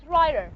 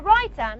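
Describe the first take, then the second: First: "writer" with an American flapped t. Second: "writer" with a true t in the middle; clear t, no flap. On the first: Teacher imitating how Americans say it, flapped "writer". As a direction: say "writer" with the t tapped like a quick d. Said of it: "just like Americans". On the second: Teacher contrasting with American speech, "writer" with a full t. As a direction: say "writer" with a crisp t sound, not a flap. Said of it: "not writer, just like Americans". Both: Shown as a demonstration.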